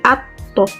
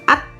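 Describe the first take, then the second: First: The final t bounces into a short vowel. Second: The final t is cut off short. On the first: The speaker calls it right. "tapi atto" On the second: The speaker calls it wrong. "bukan at"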